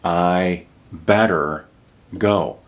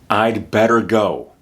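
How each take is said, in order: First: No d sound follows I before better. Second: A d sound follows I before better. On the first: "people don't use that contraction" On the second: "So you can hear the contraction"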